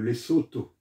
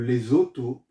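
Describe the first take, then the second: First: The middle consonant is a voiceless s sound. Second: The middle consonant is a voiced z sound. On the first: The speaker calls it right. "C'est le Lesotho" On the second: The speaker calls it wrong. "ce n'est pas le Lesotho, parce que les francophones ont tendance à dire Lesotho, parce que le S est entre deux voyelles"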